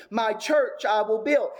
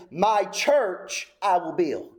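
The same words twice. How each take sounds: First: Said in the usual way. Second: "My" drawn out and hit hard, rest slow; stress on my. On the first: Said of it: "He's making a point". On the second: Shown as a demonstration. Preacher showing the original word order with "My" stressed. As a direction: lean on "My" and take the line slowly. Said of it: "This is actually where the emphasis is laid".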